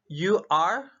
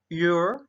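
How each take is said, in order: First: It is said as two separate full words. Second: It is said as one contracted syllable.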